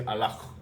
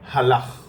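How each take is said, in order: First: The word begins with a vowel, no h. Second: The word begins with an audible h sound. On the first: "we just say alach. Okay? We don't pronounce the the h" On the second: "So we just say ch, halach"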